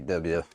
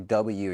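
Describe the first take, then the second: First: The letter is said in an imitated accent. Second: The letter is said in a plain voice. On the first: The speaker calls it right. "You got to say it like George Bush" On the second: The speaker calls it wrong. "You can't say it properly"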